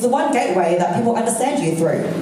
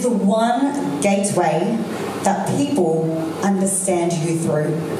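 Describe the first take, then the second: First: It is spoken quickly, with little pausing. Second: It is spoken slowly, with more pausing. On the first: The speaker calls it wrong. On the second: The speaker calls it right.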